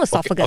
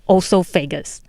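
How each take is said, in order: First: The word has its standard pronunciation. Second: The word has her old, nonstandard pronunciation. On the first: The speaker calls it right. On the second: The speaker calls it wrong.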